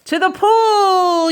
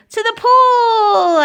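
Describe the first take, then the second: First: Drawn-out, raised, loud fireman's cry; fireman's yell. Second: Very high, loud, drawn-out cry; boy's yell. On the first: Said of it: "yelled the fireman". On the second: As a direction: yell it high and long like an excited boy. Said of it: "I yelled". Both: A narrator's reading.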